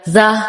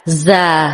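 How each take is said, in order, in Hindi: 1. ध्वनि अचानक कट जाती है। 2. ध्वनि अंत तक पूरी तरह खिंची रहती है। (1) "इस तरह कह के छोड़ देते हैं" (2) "मुकम्मल अदा करना है"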